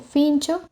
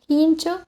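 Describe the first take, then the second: First: The word begins with an f sound. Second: The word begins with an aspirated h sound.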